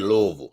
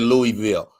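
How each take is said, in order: First: It is said the way locals say it. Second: It is said the way outsiders say it. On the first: "They that's how they say it" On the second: "Everybody else say Louisville"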